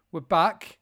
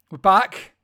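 First: We're back called out; announcing. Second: We're back shouted much louder. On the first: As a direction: announce it, a little louder. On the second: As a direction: belt it out, rising. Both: Acted.

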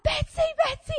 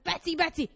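First: Very high, frantic retold call; panicked calling. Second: Said in the usual way. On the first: Owner calling her dog off the sheep, panicked. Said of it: "and I'm like".

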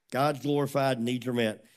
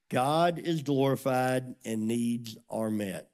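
First: Said in the usual way. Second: Slow, weighty "God is glorified and needs are met", every word leaned on; slow emphasis. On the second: Shown as a demonstration. Preacher to congregation, drawing it out slowly.

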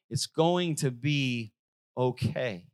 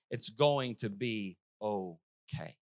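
First: God's calm promise. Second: Slow, softer reassurance; God's calm promise. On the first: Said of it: "and you hear God say". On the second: Preacher repeating God's words to the congregation, softly and slowly. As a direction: say it gently and slowly. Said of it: "God just said". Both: Retold or imitated.

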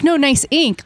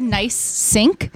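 First: "No, nice ink." with ink said clearly apart from nice; correcting to nice ink. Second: "Nice sink?" with the s joined onto sink, asked back in mild confusion; mishearing nice sink. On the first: Client corrects the barber's mishearing, a firm correction. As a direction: set "ink" apart firmly, no s before it. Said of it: "And he's like". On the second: Barber checks what the client said, a puzzled question. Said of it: "And I thought he said". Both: Retold or imitated.

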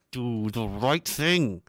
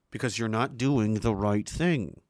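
First: Slow, mocking authority voice; drawn-out mock command; mock stern command. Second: Said in the usual way. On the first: Mocks authority slogan.

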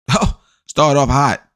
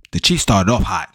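First: Higher and slow, dripping with irony; sarcastic echo. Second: Said in the usual way. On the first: Acted. Mocking the Chiefs' hot start, sarcastic drawn-out echo. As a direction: repeat it like it's a joke. Mocking his own remark after laughing.

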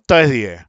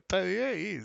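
First: Said in the usual way. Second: Quietly repeating the price under his breath; in a low voice. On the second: Retold or imitated. Friend at night repeating the price, quietly. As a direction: murmur the quote softly so only he hears. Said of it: "me dice él en voz baja".

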